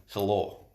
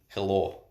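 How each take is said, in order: Both takes have the same delivery.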